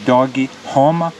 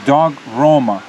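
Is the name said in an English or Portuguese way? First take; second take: Portuguese; English. First: Dog gets an extra vowel at its end. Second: Dog is said as one English syllable. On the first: "in Portuguese they say" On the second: "in English you could say"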